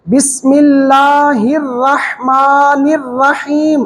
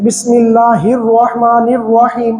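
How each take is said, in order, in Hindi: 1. होंठ खुले रहते हैं, इसलिए स्वर बिना गोलाई के सुनाई देते हैं। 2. होंठ गोल होते हैं, इसलिए स्वर गोल सुनाई देते हैं। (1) "अब गोल नहीं हुए।" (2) "उसमें जुबान के दोनों जो होंठ हैं उनको गोल कर देते हैं।"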